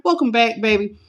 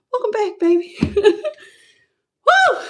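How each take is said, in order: First: Said in the usual way. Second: High laughing welcome. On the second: Real, not acted. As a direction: laugh through the greeting with a whoop. Laughing welcome to returning viewers.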